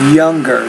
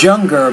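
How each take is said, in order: First: The Y sounds like an English Y. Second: The Y sounds like a Spanish Y. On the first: The speaker calls it right. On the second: The speaker calls it wrong.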